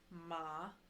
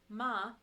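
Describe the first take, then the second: First: The pitch dips low, then rises. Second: The pitch stays high and level. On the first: "it goes down and then back up" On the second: "the first tone is the flat high tone"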